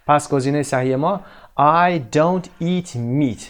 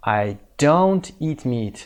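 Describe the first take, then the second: First: Said in the usual way. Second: Very slow, stressing don't; slow correct form. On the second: Shown as a demonstration. Teacher modelling the negative for learners, slow. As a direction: lay out don't slowly. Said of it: "باید از کمکی استفاده بکنیم".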